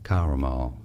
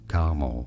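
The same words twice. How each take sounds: First: It is said in a British accent. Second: It is said in a North American accent. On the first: "But in British English, it is often pronounced as" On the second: "In North America, it is generally said as caramel, so you just eat up the middle syllable"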